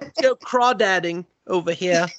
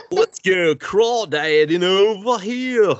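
First: High, put-on British accent; mock British voice. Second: High, drawn-out British hillbilly with a pinch of goofy; botched hillbilly accent gone British. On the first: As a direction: go British, pitched up, for a silly quote. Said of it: "I don't know why they're British". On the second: Acted. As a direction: stretch it slowly into a weird British-hillbilly twang. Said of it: "That was like a British hillbilly".

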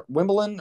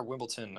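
First: "Wimbledon" with the ending softened to "-buh-lun"; "Wimbledon" ending loosely, without a hard T; soft ending pronunciation. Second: "Wimbledon" ending in a crisp "-tun"; hard T pronunciation. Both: Shown as a demonstration. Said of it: "or is it Wimbledon".

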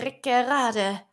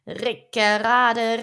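First: Said in the usual way. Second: Slow, louder rumbling Rickerade, stretched out; drawn-out mill sound. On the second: A narrator's reading. Narrator imitating the mill crunching the boys, slow and louder. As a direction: grind out Rickerade like the turning mill wheel.

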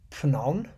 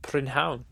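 First: Prynhawn said tentatively as prun-an, rising; first try at Prynhawn; unsure Welsh attempt. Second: Prynhawn said as prin-hown, falling; teacher's correct Prynhawn; Welsh pronunciation. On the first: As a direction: sound out Prynhawn like a question. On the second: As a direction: model the Welsh Prynhawn cleanly. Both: Shown as a demonstration. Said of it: "Very good".

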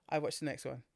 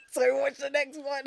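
First: Said in the usual way. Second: Higher, louder, giggling through it; laughing at himself for watching the sequel. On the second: Real, not acted.

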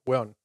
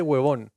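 First: "Hueón" run into a single short "weón"; one-syllable hueón. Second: "huevón" with a clear V, in two syllables; full huevón. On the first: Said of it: "como una sola sílaba". ("Hueón" en una sola sílaba, sin V) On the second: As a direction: sound out both syllables of "huevón": hue-vón. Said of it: "en Chile nadie dice huevón". ("huevón" completo, con la V pronunciada) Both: Shown as a demonstration.

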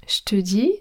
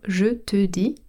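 First: „Je te” squeezed into „shte”; potoczne ściągnięcie. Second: Said in the usual way. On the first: Shown as a demonstration. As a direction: say „Je te dis” as „shte dee”. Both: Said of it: "comme je te dis".

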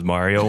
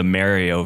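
First: Mario with first syllable like "mar"; broad A in Mario. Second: Mario with first syllable like "marry"; short A in Mario. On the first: Guest names an old debate, Mario as MAR-ee-oh. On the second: Guest names an old debate, Mario as MARE-ee-oh. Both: Shown as a demonstration. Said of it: "the Mario versus Mario one".

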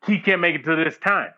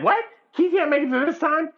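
First: Said in the usual way. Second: High-pitched mock disbelief; incredulous. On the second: Friend retelling bad news about Keith, incredulous. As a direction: repeat it back like you can't believe it.

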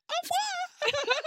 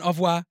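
First: Tiny, very high drawn-out French goodbye; mock French coo, sky-high; imitated French farewell. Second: Said in the usual way. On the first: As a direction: squeak it slowly like a smitten Frenchwoman. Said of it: "Like that".

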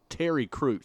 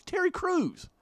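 First: Said in the usual way. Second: High-pitched excited exclamation; excited emphasis. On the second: Real, not acted. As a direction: say the name again, amazed and high. Repeats name in amazed disbelief.

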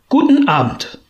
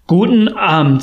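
First: Put-on a higher, odd old-miser voice on the goodbye; curt dismissal. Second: Said in the usual way. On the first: A narrator's reading. Scrooge dismissing his nephew, curt higher voice. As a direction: shut the nephew down with a sharp farewell.

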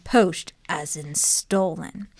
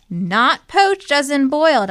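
First: "Poached" drawn out low and slow, as in stolen; slow low emphasis on "Poached"; slow, meaningful poached. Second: "poached" hit high and loud; loud, high stress on "poached" meaning boiled. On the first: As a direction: let "Poached as in stolen" sink in slowly. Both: Acted.

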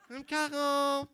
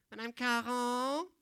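First: Higher, louder schoolkid calling again; the kid won't be ignored now; insistent pupil call. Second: Slow, lightly voiced schoolkid asking; a pupil trying to catch the teacher; polite pupil call. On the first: Acted. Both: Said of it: "Tu sais, cet élève-là".

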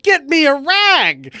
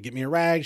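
First: Slow, high, very loud yell; full-volume re-enacted demand; exasperated yell. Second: Raised, insistent retold demand; louder, but still short of yelling. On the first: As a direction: bellow each word in exasperation. Retelling final exasperated demand. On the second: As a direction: press the demand firmly. Retelling escalating demand to wife.

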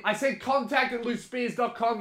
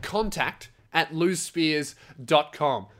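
First: High, put-on indignant voice; mock exasperated repeat. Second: Said in the usual way. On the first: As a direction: pretend irritation, pitched up high. Pretend quarrel, repeating the address.

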